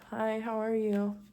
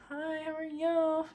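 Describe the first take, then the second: First: The greeting sounds only slightly awkward. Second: The greeting sounds very awkward.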